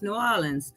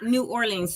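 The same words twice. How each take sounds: First: The name is run together as one word. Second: The name is said as separate words. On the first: The speaker calls it right. "it's all like it's one word" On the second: The speaker calls it wrong. "It's not New Orleans"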